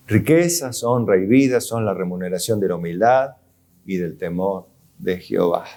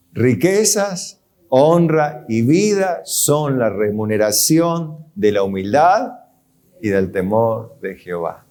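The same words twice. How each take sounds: First: A quiet, lower second reading; repeated scripture, softer and lower. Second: Scripture reading. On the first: Preacher repeats the verse softer to his congregation. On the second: Reading the verse slowly. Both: Acted.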